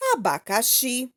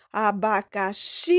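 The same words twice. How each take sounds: First: "Abacaxi" in even syllables, none held long; syllable-by-syllable reading. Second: "abacaxi" with a long-held final "xi"; calling the word. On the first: Teacher reads the word list, "Abacaxi" evenly split into syllables. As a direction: read out "Abacaxi" as a-ba-ca-xi. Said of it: "Leia estas palavras separadas em sílabas". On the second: Teacher shows how to find the tônica, "xi" in "abacaxi" held long. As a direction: call out "abacaxi", stretching the last syllable. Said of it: "dá pra chamar a palavra". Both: Shown as a demonstration.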